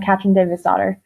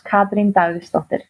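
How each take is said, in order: First: The name is said with anglicized sounds. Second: The name is said with Icelandic sounds. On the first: This is the easy version other people can say. "the announcers have always just gone" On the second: This is the original native pronunciation. "But in Icelandic, it's"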